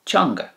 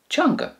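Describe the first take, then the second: First: Said in the usual way. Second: Teanga said again alone, far higher; repeated for learners. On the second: Shown as a demonstration. Teacher repeating teanga high for learners. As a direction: lift teanga high and clear as a model. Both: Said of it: "The Irish for tongue or language is teanga".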